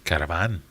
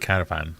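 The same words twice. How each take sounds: First: It is said the local Sheffield way. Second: It is said the usual non-Sheffield way. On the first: "they have to say caravan" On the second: "they can't say caravan"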